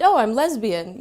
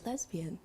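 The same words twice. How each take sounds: First: Louder, proud declaration; projected with pride. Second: A hushed, barely voiced confession; whispered. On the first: Retold or imitated. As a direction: push the word out boldly. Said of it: "project a little bit more". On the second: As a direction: say it almost without voice, ashamed. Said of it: "and then I kind of whispered".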